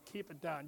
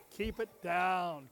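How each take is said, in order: First: Softer, hushed repeat; quiet. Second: Said in the usual way. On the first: Shown as a demonstration. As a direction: bring it right down.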